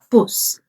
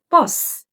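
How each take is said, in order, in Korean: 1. 북부 영국 억양으로 말했어요. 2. 남부 영국 억양으로 말했어요.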